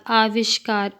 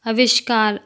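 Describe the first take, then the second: First: Long opening aa in "आविष्कार"; correct pronunciation. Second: Short first vowel in "आविष्कार", like "अविष्कार"; incorrect pronunciation. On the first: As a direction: say "आविष्कार" with the first vowel held long. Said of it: "शुद्ध शब्द". ("आविष्कार" का शुद्ध उच्चारण, शुरू में लंबा आ) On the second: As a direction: say "आविष्कार" wrongly with a brief opening a. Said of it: "अशुद्ध शब्द". ("आविष्कार" का अशुद्ध उच्चारण, शुरू में छोटा अ) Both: Shown as a demonstration.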